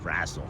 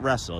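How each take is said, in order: First: The first vowel sounds like the one in 'rass'. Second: The first vowel sounds like the one in 'rest'. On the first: The speaker calls it right. "R A S Z L" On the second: The speaker calls it wrong. "not wrestle"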